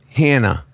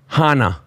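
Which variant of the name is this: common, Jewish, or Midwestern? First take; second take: Midwestern; Jewish. First: The name is said the Midwestern way. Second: The name is said the Jewish way. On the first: "And then Midwest, they say Hannah"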